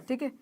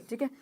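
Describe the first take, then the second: No difference in how they are said.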